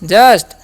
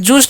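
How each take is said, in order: First: The vowel is a short 'uh' sound. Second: The vowel is a long 'oo' sound. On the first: The speaker calls it right. "यू का अ" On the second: The speaker calls it wrong. "इसे जूस्ट नहीं पढ़ना है"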